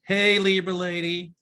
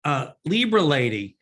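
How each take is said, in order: First: Higher, sing-song hello to a viewer; playful greeting. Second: Said in the usual way. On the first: Pretend. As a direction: greet her like an old friend, with a lilt. Greeting the asker with flourish.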